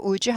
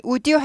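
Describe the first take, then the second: First: "would you" blended to "u-jyu"; linked pronunciation. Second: "would you" as "u-di yu", D kept; unlinked pronunciation. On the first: Teacher telling learners what suffices, "would you" linked with J. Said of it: "would you 한다". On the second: Teacher demonstrating what not to say, "would you" unlinked. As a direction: pronounce "would you" with the D apart from "you". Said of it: "would you 하지 않고". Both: Shown as a demonstration.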